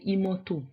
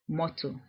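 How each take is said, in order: First: An extra vowel is added before the m. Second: It starts directly with the m consonant. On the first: "in Edo we say imoto. So we add we add the vowel sound e in front" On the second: "we have the word motor in English"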